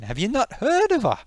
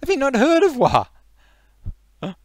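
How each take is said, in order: First: High-pitched Geordie disbelief; indignant question. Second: Very high, loud, stretched-out question; incredulous shout. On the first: Geordie challenging someone who hasn't heard, indignant. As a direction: ask it incredulously, pitch leaping. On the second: Geordie repeating himself to the ignorant, outraged shout. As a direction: holler it slowly in Geordie outrage. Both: Acted.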